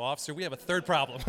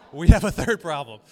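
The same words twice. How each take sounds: First: Said in the usual way. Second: Punchline repeated much louder. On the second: Retold or imitated. Pastor repeating his punchline louder to the congregation. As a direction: hammer the punchline home loudly.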